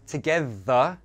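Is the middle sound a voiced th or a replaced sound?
voiced th. The middle sound is a voiced th. "voiced th sounds"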